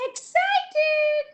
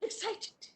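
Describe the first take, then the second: First: Much higher, bright excited call. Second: Breathy whisper of the word. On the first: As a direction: burst out with it. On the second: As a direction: hush it like a secret. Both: Shown as a demonstration. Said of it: "how do you make excited face?".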